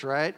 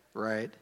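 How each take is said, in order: First: Questioning rise, inviting agreement; rhetorical question. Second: Low, soft, deadpan confirmation; dry self-answer. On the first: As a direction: ask it as if expecting a yes. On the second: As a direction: answer your own question quietly. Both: Shown as a demonstration.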